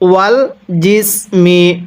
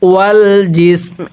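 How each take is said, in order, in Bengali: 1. শব্দগুচ্ছটি m-এর পরে একটি ছোট স্বরধ্বনি দিয়ে শেষ হয়। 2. শব্দগুচ্ছটি একটি হালকা m ধ্বনি দিয়ে শেষ হয়।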